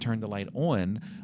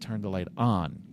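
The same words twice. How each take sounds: First: It has a Maryland accent on 'on'. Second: It has a neutral accent on 'on'. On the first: This is how the speaker used to talk. "instead of saying" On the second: This is how the speaker trained themself to talk. "I trained myself"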